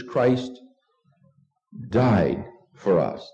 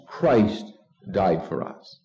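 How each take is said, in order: First: Long pause, then a slow, drawn-out "died"; stress on died. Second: "Christ" set apart and weighted, "died for us" falling away lower; stress on Christ. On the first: Preacher answers what Christ did, stress on "died". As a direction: hold back after "Christ", then land heavily on "died". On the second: Preacher models the answer to who died, stress on "Christ". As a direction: hit "Christ", then let the rest drop. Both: Shown as a demonstration. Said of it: "emphasizing the word Christ".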